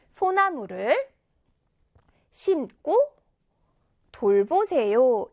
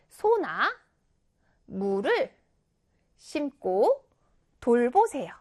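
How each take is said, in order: First: 소나무 and 돌보세요 are each said without a break. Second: There is a pause between 소나 and 무를.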